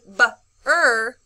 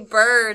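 First: The b and r sounds are said separately. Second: The b and r sounds are blended together. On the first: The speaker calls it wrong. "But we wouldn't say br" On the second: The speaker calls it right. "When we put it together, we say br"

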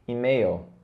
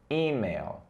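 First: The stress is on the second syllable. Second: The stress is on the first syllable. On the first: This is the Portuguese way of saying it. "no português nós falamos e-mail" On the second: This is the English way of saying it. "Dê o ênfase no i, ok? O i é mais stressed, é mais forte"

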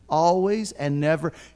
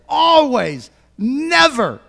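First: It is said in a very soft voice. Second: It is yelled loudly.

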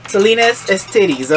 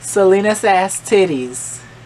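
First: The middle word sounds like 'is'. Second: The middle word sounds like 'ass'. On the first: The speaker calls it wrong. "I was saying it wrong" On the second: The speaker calls it right. "It's like you see these ass and titties"

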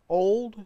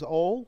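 First: The final D sound is pronounced. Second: The final D sound is dropped. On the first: "take off the D" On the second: "take off the D"

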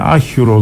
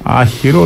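First: The second vowel sounds like u. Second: The second vowel sounds like i. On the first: This is the local dialect form. "λέμε άχυρο" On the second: This is the standard Modern Greek form. "Δεν λέμε άχυρο"

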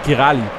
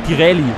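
First: The second vowel sounds like 'a'. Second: The second vowel sounds like 'e'. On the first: "Oder Girali" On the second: "über einem A ist irgendwas, das muss wie er ausgesprochen werden"

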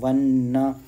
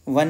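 First: The word ends with a full 'na' syllable. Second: The word ends on a bare 'n' sound. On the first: The speaker calls it right. "इसको वन्ना" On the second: The speaker calls it wrong. "वन नहीं बोलना"

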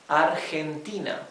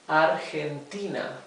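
The two takes are said the same way.

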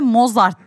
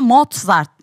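First: It is said as spelled, with no t sound. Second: A t sound is heard before the z. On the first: This is how the name is written. "normalde Mozart diye yazılıyor" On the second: This is how the name is actually pronounced. "ama Mozart diye telaffuz ediliyor"

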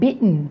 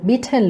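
First: The middle t is stopped in the throat. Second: The middle t is released as a clear t. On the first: "เหมือนเป็นการกลั้นเสียงไว้ในคอ" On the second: "ใครจะพูดว่า beaten ก็ได้นะคะเอาแบบสะดวก"

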